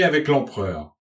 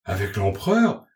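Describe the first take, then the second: First: AVEC L'EMPEREUR announced with a falling end; "avec l'empereur" told emphatically, dropping at the close; emphatic statement. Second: "avec l'empereur" echoed as a question, rising at the end; listeners' questioning echo, rising on "l'empereur". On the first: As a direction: state "avec l'empereur" as startling news, ending down. Narrator states whom he met. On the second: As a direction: repeat "avec l'empereur" back in disbelief, voice lifting. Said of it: "répéta l'assistance". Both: A narrator's reading.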